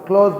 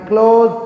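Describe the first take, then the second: First: The word ends with a voiceless s sound. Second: The word ends with a voiced z sound. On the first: It means to shut. "సా వలుకుతుంది" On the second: It means near or intimate. "జా వలుకుతుంది"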